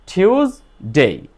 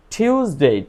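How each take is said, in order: First: টিউজডে slowly parted as টিউজ, then ডে; split into syllables. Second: Said in the usual way. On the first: Shown as a demonstration. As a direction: say টিউজডে in two separate syllables. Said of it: "এখানে কয়টা syllable". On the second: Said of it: "দুইটা".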